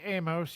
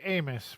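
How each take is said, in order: First: "Amos" with a full long o, AY-mohss; own pronunciation AY-mohss. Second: "Amos" with a weak second vowel, AY-muss; co-host's pronunciation AY-muss. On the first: Asking co-host which is right, "Amos" said AY-mohss. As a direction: say "Amos" with a clear "oh" in the second syllable. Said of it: "I say Amos". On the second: Quoting co-host's way of saying it, "Amos" as AY-muss. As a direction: reduce the end of "Amos" to a short "muss". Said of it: "you say Amos". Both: Shown as a demonstration.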